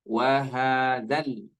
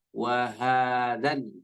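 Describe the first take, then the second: Both takes have the same delivery.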